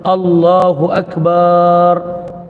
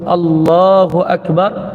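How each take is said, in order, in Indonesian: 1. Vokal setelah b dalam Akbar panjang. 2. Vokal setelah b dalam Akbar pendek. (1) "memanjangkan ba, ataupun dia mematkan huruf ba" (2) "sepatutnya dia sebut Allahu Akbar"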